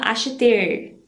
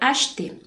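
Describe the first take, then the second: First: The final R sound is clearly pronounced. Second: The final R sound is left silent. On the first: The speaker calls it wrong. "a gente não fala acheter" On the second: The speaker calls it right. "Esse R aqui meio que dá uma desaparecida"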